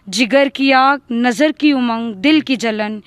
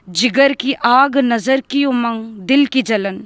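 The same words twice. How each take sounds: The two takes are said the same way.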